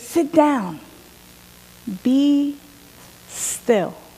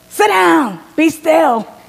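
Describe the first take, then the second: First: It is said simply and gently. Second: It is said sternly, like a scolding.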